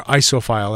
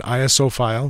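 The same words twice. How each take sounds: First: "iso" said as one word, eye-so. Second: I S O spelled out letter by letter. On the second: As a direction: say "I S O" as three separate letters. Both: Shown as a demonstration. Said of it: "as they say".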